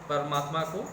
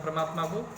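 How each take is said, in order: The two takes are said the same way.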